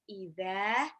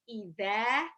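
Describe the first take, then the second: No difference in how they are said.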